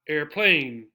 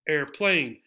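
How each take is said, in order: First: The stress is on the second syllable. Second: The stress is on the first syllable. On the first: The speaker calls it wrong. "not airplane" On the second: The speaker calls it right. "We stress the first syllable"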